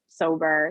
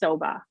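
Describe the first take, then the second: First: The final r sound is pronounced. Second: The final r sound is dropped. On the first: "instead of sober" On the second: "in Boston they don't say there are"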